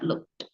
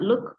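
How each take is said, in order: First: The word ends with an audible t sound. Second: The word ends without a final t sound. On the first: The speaker calls it right. "but looked" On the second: The speaker calls it wrong. "And not look"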